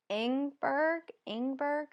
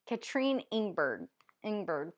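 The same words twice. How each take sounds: First: "Ingberg" pitched high, rising like a question; unsure rising tone. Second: "Katrine Ingberg" stated with falling endings; settled falling tone. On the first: Reader unsure of an author's name, "Ingberg" as a high question. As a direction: try "Ingberg" tentatively, voice lifting. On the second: Reader retrying the author's name, "Ingberg" falling and settled. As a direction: land "Ingberg" downward, as a statement. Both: Real, not acted.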